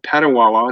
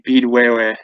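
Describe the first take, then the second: First: It is said with an English pronunciation. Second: It is said with an Ojibwe pronunciation. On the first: The speaker calls it wrong. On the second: The speaker calls it right.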